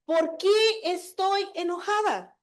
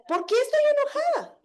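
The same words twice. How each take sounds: First: Slow self-questioning. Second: "¿Por qué estoy enojada?" asked again much higher, "estoy" lifted; second, higher take of the same self-question. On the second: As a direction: repeat it, pitch jumping up on "estoy". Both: Shown as a demonstration. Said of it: "en realidad es eso".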